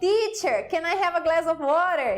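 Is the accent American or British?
American. It is said in an American accent. This is how the learner first said it. The speaker calls it wrong. "Eu cheguei na escola falando"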